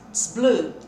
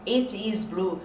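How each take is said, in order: First: It and is merge into one 'ts' sound. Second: It and is are said as separate words. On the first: "que na fala tss, vai ser isso aqui" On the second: "A gente não fala muito it is blue"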